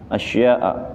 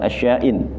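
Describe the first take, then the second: First: The word ends on a plain a vowel. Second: The word ends with a nasal ending, not a. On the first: The speaker calls it right. "dibaca fathah" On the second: The speaker calls it wrong. "bukan asya'in, salah"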